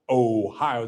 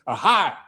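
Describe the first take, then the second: First: The word ends with a clear 'oh' sound. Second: The word ends with an 'ah' sound. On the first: "They don't say Ohio" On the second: "that's how people talk in Ohio"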